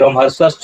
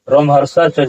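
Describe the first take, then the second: First: The word ends in an s sound before ca. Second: The word ends in a breathy h before ca. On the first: The speaker calls it wrong. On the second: The speaker calls it right.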